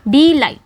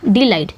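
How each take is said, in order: First: डिलाइट broken up, said with force; stress on लाइट. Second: डिलाइट with डि passed over quickly, weight on लाइट; quick unstressed first syllable. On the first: Teacher showing students where the stress falls, emphatic stress demo. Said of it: "थोड़ा जोर दे के बोल रहे हैं". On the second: Teacher showing the unstressed syllable, डिलाइट said in one go. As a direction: say डिलाइट whole, no force on डि. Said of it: "जल्दी से बोल दिया ना". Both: Shown as a demonstration.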